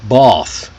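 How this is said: The vowel is a long, open broad A. "the British English might sound a bit more like bath"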